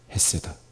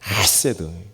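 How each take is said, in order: First: The first sound is a plain, soft h. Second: The first sound is a harsh, spat throat sound. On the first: The speaker calls it wrong. "원래 발음은 그냥 헤세드라고 하지 않고요" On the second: The speaker calls it right. "확 뱉는 소리"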